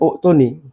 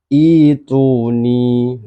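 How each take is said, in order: First: The word begins with a u vowel. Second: The word begins with an i vowel. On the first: The speaker calls it wrong. "bukan uktuni" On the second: The speaker calls it right. "tapi ituni"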